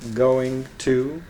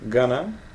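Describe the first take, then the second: First: Every sound of both words is said. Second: The phrase is squeezed into a short gonna.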